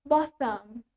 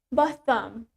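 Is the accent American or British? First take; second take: British; British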